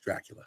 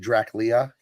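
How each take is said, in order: First: The sounds are in order, giving Drac-u-la. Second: The sounds are swapped, giving Drac-lia. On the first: The speaker calls it right. "It's like it's Dracula" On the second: The speaker calls it wrong. "He would transpose those letters"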